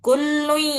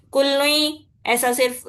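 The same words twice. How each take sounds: First: کل لوئی with the voice through the nose; nasal ghunna. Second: کل لوئی said with no nasal hum; wrong, without ghunna. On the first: Teacher shows students ghunna through the nose. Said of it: "ناک سے آواز نکال رہی ہوں میں ابھی". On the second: Teacher shows students the wrong reading without ghunna. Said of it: "بنا غننے کے پڑھے، وہ بھی غلط ہے". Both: Shown as a demonstration.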